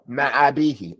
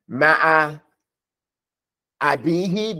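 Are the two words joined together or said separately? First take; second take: joined; separate. First: The two words run together as one word. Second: The two words are said as separate words. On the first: The speaker calls it right. "You have to put it together" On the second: The speaker calls it wrong.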